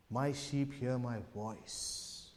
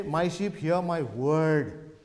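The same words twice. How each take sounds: First: Soft, low, slow, lingering on "voice"; stress on VOICE. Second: "word" drawn out as the mistaken version; stress on WORD. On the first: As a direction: hush it and savour the word "voice". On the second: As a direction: slowly stretch the word "word". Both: Shown as a demonstration. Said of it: "The Lord did not say".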